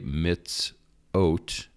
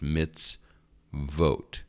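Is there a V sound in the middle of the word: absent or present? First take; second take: absent; present. First: The word is said without a V sound. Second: The word is said with a V sound. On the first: The speaker calls it wrong. "It looks like you would say mitzot, but it is not" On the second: The speaker calls it right. "you have to pronounce the O, or the Vav here, the V"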